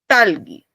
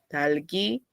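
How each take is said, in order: First: The first consonant is hard and tense. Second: The first consonant is soft and relaxed. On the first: "y esta es talgi" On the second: "Está suave"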